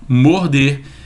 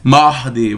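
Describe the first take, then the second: First: The O vowel is said closed. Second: The O vowel is said open. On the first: The speaker calls it right. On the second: The speaker calls it wrong.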